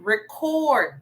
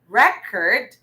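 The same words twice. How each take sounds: First: The stress is on the second syllable. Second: The stress is on the first syllable. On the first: It is the verb. "meaning it's a verb. Okay, so the syllable stress is in the second syllable" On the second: It is the noun. "A while back we had record"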